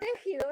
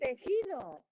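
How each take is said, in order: First: The stress is on the first syllable. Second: The stress is on the second syllable. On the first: The speaker calls it wrong. "No es el tejido" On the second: The speaker calls it right. "es el tejido"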